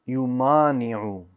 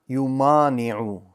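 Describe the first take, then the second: No difference in how they are said.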